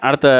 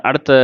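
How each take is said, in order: No difference in how they are said.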